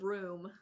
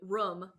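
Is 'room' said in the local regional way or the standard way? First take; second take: standard; regional. First: The word has the common standard vowel. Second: The word has the speaker's local regional vowel. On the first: "instead of room" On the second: "up here I say room"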